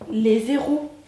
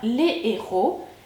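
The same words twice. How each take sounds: First: A z sound links the two words. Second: No z sound links the two words. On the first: It sounds like several zeros. The speaker calls it wrong. "et pas les héros" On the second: It means several heroes. The speaker calls it right. "on dit bien les héros"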